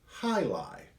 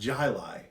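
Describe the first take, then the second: First: The name starts with an H sound. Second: The name starts with a J sound. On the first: The speaker calls it right. "Make sure you spell it and say it right" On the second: The speaker calls it wrong. "It's not Jili"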